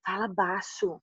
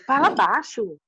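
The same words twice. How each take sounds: First: Softly, like a father hushing his daughter in public; a quiet urgent hush, Fala baixo; hushed plea. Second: Said in the usual way. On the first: Retold or imitated. Father asks her to lower voice.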